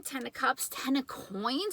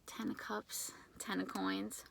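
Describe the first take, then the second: First: Said in the usual way. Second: Ten of Cups, Ten of Coins whispered, much softer; whispered card names in disbelief; awed whisper. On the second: Real, not acted. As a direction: repeat the cards under your breath in awe. Repeats the cards in awe.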